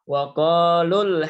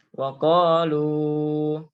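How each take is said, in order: First: The final vowel is short and runs on. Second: The final vowel is held long before stopping. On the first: The recitation continues without stopping. "dibaca tidak panjang, yaitu dengan cara wasol, bacanya tidak berhenti" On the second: The recitation stops after this word. "ya panjang dua harokat"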